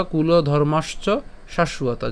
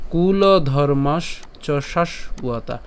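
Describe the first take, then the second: First: "কুল ধর্মাশ্চ শাশ্বতা" with each word whole; joined pronunciation. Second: Very slow "কুল ধর্মাশ্চ শাশ্বতা" in pieces; split pronunciation. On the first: Teacher offers the all-together version, joined pronunciation. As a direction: keep "ধর্মাশ্চ" and "শাশ্বতা" unbroken. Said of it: "যদি আমরা একসাথে বলি". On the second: Teacher breaks the line up for learners, slow split pronunciation. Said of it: "শ্লোকটিকে আরেকটু ভেঙে দিয়েছি". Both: Shown as a demonstration.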